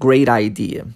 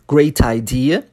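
First: The t becomes a quick r-like tap. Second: The t is a clear t sound.

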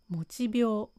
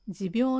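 First: It is pronounced mochibyou. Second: It is pronounced jibyou. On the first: The speaker calls it wrong. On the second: The speaker calls it right.

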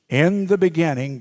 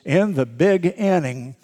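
First: Beginning is said as one smooth word. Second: Beginning is split into big and inning. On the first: It refers to the start of creation. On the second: It refers to a big baseball inning.

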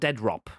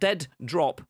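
First: It is said as one blended word with one d. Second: It is said as two separate words, dead and drop. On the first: The speaker calls it right. "but Dead Rop. One word" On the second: The speaker calls it wrong. "Not Dead Drop"

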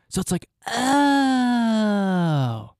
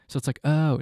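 First: The "oh" is said with big exaggerated energy. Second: The "oh" is said flatly, brushed off.

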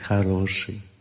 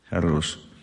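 First: It sounds approving, meaning good. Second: It sounds disapproving, meaning bad.

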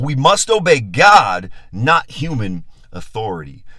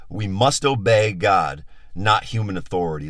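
First: It is said noticeably louder. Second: It is said at a normal volume.

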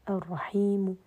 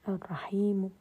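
No difference in how they are said.

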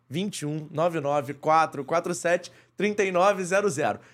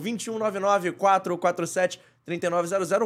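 First: The number is said slowly. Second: The number is said at normal speed.

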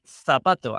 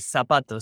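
First: The z is said the way Spain says it. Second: The z is said the listeners' way, not Spain's.

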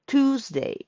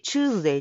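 First: The word begins with a 'too' sound. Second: The word begins with a 'choo' sound. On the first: The speaker calls it right. "あれもTU なので、発音記号を見ると" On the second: The speaker calls it wrong. "火曜日ってチューズデイ、チューズデイって言うんですけど"

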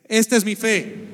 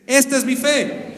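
First: It is said listlessly, without conviction. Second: It is said firmly, with conviction.

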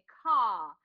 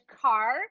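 First: The final R is silent, British style. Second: The final R is pronounced.

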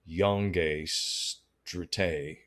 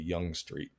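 First: The first word has two syllables, yon-gay. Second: The first word has one syllable, young. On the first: The speaker calls it wrong. "you always call me Yongay Strite" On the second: The speaker calls it right. "it's really Young Street"

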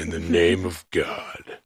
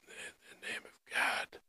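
First: It is said in a full, clear voice. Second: It is said in a strained, compressed voice.

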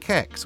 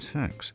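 First: The word begins with a K sound. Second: The word begins with an S sound. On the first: "But if it's a hard C, you're saying kex" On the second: "If it's a soft C, oh, you're saying sex"

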